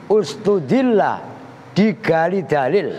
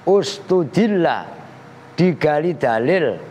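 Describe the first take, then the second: No difference in how they are said.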